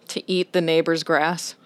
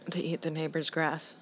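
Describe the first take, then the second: First: It is said louder. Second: It is said at normal, quieter volume.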